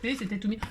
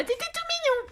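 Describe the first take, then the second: First: Said in the usual way. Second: Voix très aiguë, toute attendrie; petite voix aiguë. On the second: Shown as a demonstration. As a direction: couiner « t'étais tout mignon ». (« mignon » glissé en voix de tête très aiguë)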